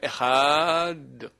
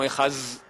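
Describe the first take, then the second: First: The word ends with a short d sound. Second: The word ends with a z sound. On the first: The speaker calls it right. "avec un D. Mais on ne peut pas rallonger" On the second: The speaker calls it wrong. "Il ne faut pas dire un Z"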